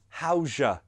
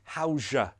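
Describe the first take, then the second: First: The word 'your' is reduced to 'ya'. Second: The same.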